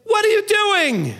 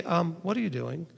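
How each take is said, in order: First: High, loud, slow outburst; exasperated shout. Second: Soft mild question. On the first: Parent catching a child in the act, shouting. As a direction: yell it like you caught a child. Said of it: "looked at them and said". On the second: Walking over to a coworker and asking softly. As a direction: ask it gently and lightly. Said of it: "you just go over and say". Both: Retold or imitated.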